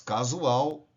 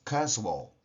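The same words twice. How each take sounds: First: It is pronounced with Portuguese sounds. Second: It is pronounced with English sounds. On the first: "Em português" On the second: "em inglês"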